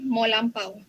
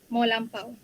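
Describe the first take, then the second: The two takes are said the same way.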